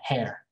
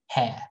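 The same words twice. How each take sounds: First: It is said in an American accent. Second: It is said in a British accent.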